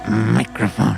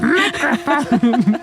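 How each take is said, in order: First: The childlike voice is pitched lower. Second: The childlike voice is pitched higher. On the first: The speaker calls it wrong. "That's probably a little bit lower than it was for her" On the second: The speaker calls it right. "It's probably more like"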